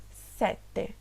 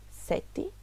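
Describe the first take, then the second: First: Sete with closed e, sete; Italian sete. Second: Sete with an open e, sɛti; Portuguese sete. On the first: Teacher models Italian sete pronunciation. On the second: Teacher models Portuguese Sete pronunciation. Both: Shown as a demonstration. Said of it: "preste atenção na pronúncia".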